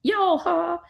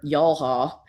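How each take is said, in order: First: YALHA in a very high voice; playful high-pitched name. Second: Said in the usual way. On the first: Shown as a demonstration. Narrator retrying the planet name Yalha, playfully high-pitched.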